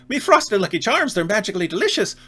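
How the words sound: It is said in an Irish accent.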